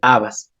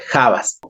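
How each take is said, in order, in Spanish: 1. La palabra empieza directamente con un sonido vocálico. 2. La palabra empieza con un sonido j fuerte. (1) "En quichua y en español se escribe tal cual" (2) "en quichua se pronuncia la H con la J, se dice jabas"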